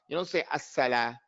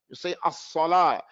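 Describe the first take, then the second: First: The s sound is light, with a flat tongue. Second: The s sound is heavy, with a raised tongue. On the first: The speaker calls it wrong. "You don't say" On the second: The speaker calls it right. "You say"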